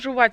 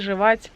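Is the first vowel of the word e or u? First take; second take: u; e. First: The first vowel sounds like u. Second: The first vowel sounds like e. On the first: This is one person's own way of saying it. The speaker calls it wrong. "Только у тебя жувать" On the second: This is how everyone else says it. The speaker calls it right. "у всех людей жевать"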